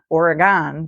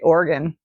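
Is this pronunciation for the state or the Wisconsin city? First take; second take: Wisconsin city; state. First: It is pronounced the way the Wisconsin city says it. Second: It is pronounced the way the state says it. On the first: It names a city in Wisconsin. The speaker calls it wrong. "not Oregon, which is a city in Wisconsin" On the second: It names the state of Oregon. The speaker calls it right. "you have to be careful to say Oregon"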